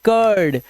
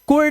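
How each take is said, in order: First: The vowel sounds like the u in fur. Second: The vowel sounds like the u in put. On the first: The speaker calls it right. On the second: The speaker calls it wrong.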